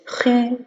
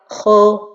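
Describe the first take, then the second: First: The vowel is a fronted French u sound. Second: The vowel is an open o sound. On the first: The vowel leans toward the i vowel. "ma voyelle dhamma se penche vers le kasra ... On dirait que c'est le U français" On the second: The vowel leans toward the a vowel. "Si je regroupe pas bien mes lèvres ... je me penche vers le fatha"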